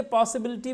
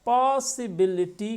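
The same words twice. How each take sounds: First: Said in the usual way. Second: "पॉसिबिलिटी" drawn out slowly as पॉ-सि-बि-लि-टी; syllable-by-syllable. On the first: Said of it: "count करिए". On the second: Shown as a demonstration. Teacher asking students to count, "पॉसिबिलिटी" slowly split into syllables. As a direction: break "पॉसिबिलिटी" into five slow, separate syllables. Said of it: "पॉसिबिलिटी में कितने syllable हैं".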